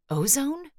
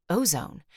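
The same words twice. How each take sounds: First: "Ozone?" with a big upward question lift. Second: "ozone" said with a settled falling tune; confirming. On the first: Brick sniffing, puzzling over the odd smell. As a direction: ask "Ozone?" as he tries to place the smell. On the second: Brick confirming the smell to himself. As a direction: land "ozone" flat and sure. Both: A narrator's reading. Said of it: "Yeah, ozone".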